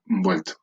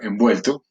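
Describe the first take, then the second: First: The syllable with the nasal consonant is simplified. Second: The nasal consonant is pronounced in full. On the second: "la palabra"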